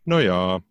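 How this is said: It sounds relaxed and accepting.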